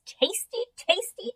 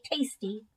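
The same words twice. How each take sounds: First: Tasty, tasty sung high with a rising lilt; sing-song. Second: Settling down. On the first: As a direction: relish each tasty like a treat. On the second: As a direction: close the list contentedly. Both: A narrator's reading. Hamster savoring the seeds.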